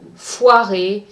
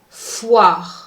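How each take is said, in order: First: The final E is pronounced. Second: The final E is silent. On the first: The speaker calls it wrong. "foirer is incorrect" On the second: The speaker calls it right. "Don't pronounce the E"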